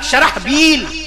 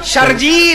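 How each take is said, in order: First: The middle has an h followed by b. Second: The middle has a j sound instead. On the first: The speaker calls it right. "शरह अलग, बील अलग, शरहबील" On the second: The speaker calls it wrong. "वो हे को जीम बनाया"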